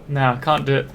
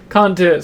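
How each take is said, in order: First: Said in the usual way. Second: "Can't do it" louder and higher, falling hard on "cant"; emphatic repeat. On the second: Real, not acted. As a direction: punch "Can't" with a firm falling tune. Refusing steak and kidney pie.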